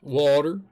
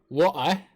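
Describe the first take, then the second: First: "Water" in an American accent, r sounded; American "Water" with a full final r; American pronunciation. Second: "Water" in mock British, the final r dropped; British accent, open "ah" ending on "Water"; British pronunciation. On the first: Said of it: "like, an American talking". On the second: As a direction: demonstrate British "Water" without the r. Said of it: "You go like". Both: Shown as a demonstration.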